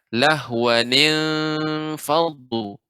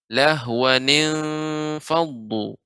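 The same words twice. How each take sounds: First: The words are joined with a linking ni sound. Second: The same.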